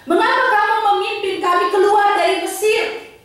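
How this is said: It is read as an angry protest.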